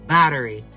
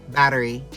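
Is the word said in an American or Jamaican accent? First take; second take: American; American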